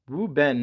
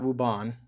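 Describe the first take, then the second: First: The second word has the vowel of 'ben'. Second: The second word has the vowel of 'ban'. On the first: The speaker calls it right. "I think it's Wu Ben" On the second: The speaker calls it wrong. "not Wu Ban. I think I've been pronouncing this name wrong"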